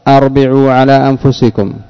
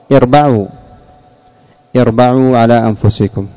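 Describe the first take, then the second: First: The first word begins with a glottal stop 'a'. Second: The first word begins with an 'i' vowel. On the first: The speaker calls it wrong. "فالخطأ الأول" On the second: The speaker calls it right. "الصواب"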